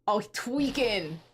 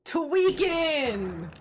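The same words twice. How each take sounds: First: Slow, stretched-out words in usual pitch; drawn-out reaction. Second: Higher, long-drawn mock cry; hammed-up cry. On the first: Acted. Player reacting to the cornered villain, drawn out. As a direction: drag it out slowly. Villain losing composure, first take. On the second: Player reacting to the cornered villain, hammed-up cry. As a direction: draw it out high and exclaiming. Same word repeated as a cry.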